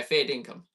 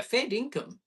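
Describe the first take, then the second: First: "Fair dinkum" stated, falling, no lift; "Fair dinkum" with a firm statement tune; affirming fair dinkum. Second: "Fair dinkum" asked, voice lifted on "Fair"; "Fair dinkum" with the tune of a question. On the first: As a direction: say "Fair dinkum" flat and certain, a hundred percent serious. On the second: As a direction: say "Fair dinkum" as a surprised question, are you serious. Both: Shown as a demonstration. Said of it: "it's kind of about the tonality".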